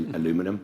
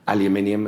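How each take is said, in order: First: The word is said with four syllables, a-lu-mi-num. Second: The word is said with five syllables, al-u-min-i-um. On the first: This is how the other person says it. "I believe you say" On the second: This is the speaker's own way of saying it. "as I pronounce it"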